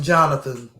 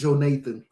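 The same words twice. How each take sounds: First: The name is said in a neighborhood street style. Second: The name is said in a white-sounding style. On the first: This is how people in the neighborhood say it.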